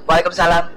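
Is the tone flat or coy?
flat. It is said flatly, like an independent wife.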